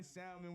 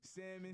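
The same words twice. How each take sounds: First: "salmon" with the L sounded. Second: "Salmon" with the L left silent. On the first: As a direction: say "salmon" as SAL-min, L pronounced. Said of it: "we say salmon". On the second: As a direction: say "Salmon" as SAM-in, no L sound. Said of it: "Salmon is known as salmon". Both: Shown as a demonstration.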